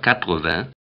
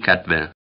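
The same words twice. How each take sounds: First: The first part is said in full. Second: The first part is clipped short. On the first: The speaker calls it right. "immer 80" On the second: The speaker calls it wrong. "nie 80"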